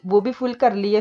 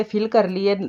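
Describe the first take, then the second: First: फुल said with a plain p-like sound, like full; offhand slip: फुल instead of फिल; slip saying फुल. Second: फिल said clearly with an aspirated f sound and short i, like fill; self-correction, landing on फिल; corrected to fill. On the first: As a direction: says फुल, the wrong word, before correcting. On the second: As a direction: fixes the slip, saying फिल clearly. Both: Shown as a demonstration.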